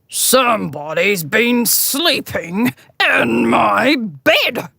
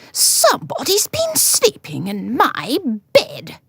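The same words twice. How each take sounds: First: It is growled in a great big voice. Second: It is cried in a middle-sized voice.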